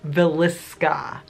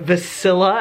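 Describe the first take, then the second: First: The name is said as Villisca. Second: The name is said as Vasilla. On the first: The speaker calls it right. "but it's Villisca" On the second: The speaker calls it wrong. "I've been calling this the Vasilla"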